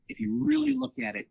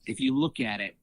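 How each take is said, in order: First: "really" lifted high in pitch; stress on REALLY. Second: Said in the usual way. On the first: Real, not acted. Restated with emphasis on really.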